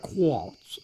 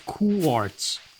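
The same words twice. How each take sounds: First: It is said in a British accent. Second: It is said in an American accent. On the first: "the British way makes that R at the end another W" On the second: "But no, it's quartz"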